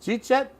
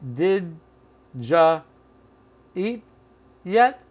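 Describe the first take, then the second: First: It is squeezed into two syllables, jeet yet. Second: The word you is reduced to ja. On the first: "Or simply" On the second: "Or did ja eat yet?"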